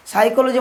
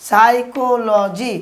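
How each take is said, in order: First: Said in the usual way. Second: সাইকোলজি drawn out as "sai... ko... lo... ji"; syllable-by-syllable demo. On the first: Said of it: "মানে হচ্ছে কি". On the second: Shown as a demonstration. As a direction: say সাইকোলজি very slowly in separate syllables. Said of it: "উচ্চারণ কি যে সাইকোলজি".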